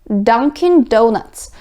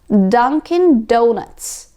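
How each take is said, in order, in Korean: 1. D 소리는 혀를 더 뒤쪽, 잇몸 언덕에 붙여요. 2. D 소리는 혀를 더 뒤쪽, 잇몸 언덕에 붙여요.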